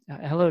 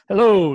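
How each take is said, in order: First: Said in a plain, ordinary speaking voice. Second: Said in an over-exaggerated character voice. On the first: "instead of saying hello" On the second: "it was his voice, except it was just over exaggerated"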